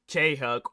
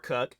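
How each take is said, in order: First: The name is said as two syllables. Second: The name is said as one syllable. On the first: The speaker calls it right. "I feel more comfortable saying K Huck" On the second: The speaker calls it wrong. "Cuck just sounds weird"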